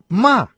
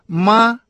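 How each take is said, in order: First: The pitch falls sharply from high. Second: The pitch stays high and level. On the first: It means to scold. "четвертый тон" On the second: It means mother. "первый тон"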